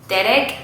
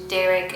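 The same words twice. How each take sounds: First: It is pronounced with a Spanish R. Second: It is pronounced with an English R. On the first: "in Spanish" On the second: "in English"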